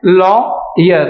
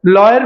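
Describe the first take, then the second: First: लॉयर broken into law, then yer; syllable-by-syllable demo. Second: Said in the usual way. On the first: Shown as a demonstration. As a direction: separate the two syllables of लॉयर. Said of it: "हम क्या बोलते हैं". (लॉयर को लॉ-यर, अलग-अलग बोलें) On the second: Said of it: "लॉयर में भी हम क्या".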